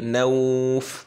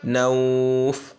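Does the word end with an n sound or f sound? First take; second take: f sound; f sound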